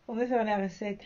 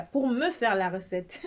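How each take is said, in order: First: Repeating it with a laugh, softer. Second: Said in the usual way. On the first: Real, not acted. Vlogger laughing as she asks followers to bring in sales. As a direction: laugh it out as a joke.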